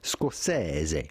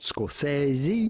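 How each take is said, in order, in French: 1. Le nom se prononce à l'italienne. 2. Le nom se prononce à l'anglaise. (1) "but rather Scorsese" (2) "So not Scorsese"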